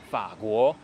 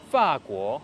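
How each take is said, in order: First: The first syllable has a low dipping tone. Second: The first syllable has a sharp falling tone. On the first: This is how it is said in mainland China. "donc la France avec un troisième ton au début" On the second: This is how it is said in Taiwan. "donc le quatrième ton avec le deuxième ton"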